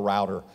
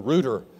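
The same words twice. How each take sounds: First: It has the American 'rowter' pronunciation. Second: It has the British 'rooter' pronunciation.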